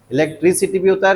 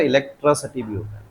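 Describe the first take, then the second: First: "इलेक्ट्रिसिटी" as e-lek-tri-si-tee, both i vowels clear; quick "इलेक्ट्रिसिटी" with tri and si; variant pronunciation. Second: "इलेक्ट्रिसिटी" as e-lek-tra-suh-tee, vowels reduced; quick "इलेक्ट्रिसिटी" with tra and suh; variant pronunciation. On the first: ("इलेक्ट्रिसिटी" में ट्रि और सि साफ़) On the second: ("इलेक्ट्रिसिटी" को इलेक्ट्रसटी बोलें) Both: Shown as a demonstration. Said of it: "इलेक्ट्रिसिटी भी होता है और".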